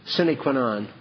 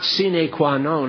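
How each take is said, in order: First: The vowels are kept short. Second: The vowels are drawn out long. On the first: The speaker calls it right. "You want to hear it right?" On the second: The speaker calls it wrong. "It's not sine qua non. ... Latin does not use long vowels like that"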